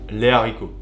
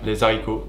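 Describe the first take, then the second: First: No z sound links the article to the noun. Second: A z sound links the article to the noun. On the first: The speaker calls it right. "on dit" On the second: The speaker calls it wrong. "on ne dit pas"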